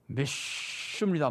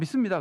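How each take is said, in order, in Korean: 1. 이 단어는 쉬는 듯한 'sh' 소리로 발음됩니다. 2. 이 단어는 평범한 보통 소리로 발음됩니다. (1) "그러지 않고 믿습니다 뭐 이러잖아요" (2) "그냥 믿습니다"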